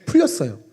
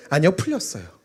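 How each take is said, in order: First: Said in the usual way. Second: 아니요 stressed, then 풀렸어요 said clearly with a falling tune; correcting a mishearing. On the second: Real, not acted. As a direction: hit 아니요 hard and spell out 풀렸어요. (아니요에 힘주고 풀렸어요는 또박또박) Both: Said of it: "돌았어요?".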